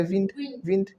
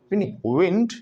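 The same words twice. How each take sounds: First: विंड said with lips unrounded, like vind; a flat विंड without rounded lips; wrong wind. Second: विंड said with rounded lips, a clear w; rounded wind. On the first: Teacher mimicking a student's flat विंड. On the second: Teacher showing the correct rounded विंड. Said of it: "lips round होते हैं". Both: Shown as a demonstration.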